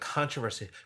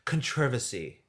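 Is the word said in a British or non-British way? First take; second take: non-British; British. First: The word is said in a non-British way. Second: The word is said in a British way.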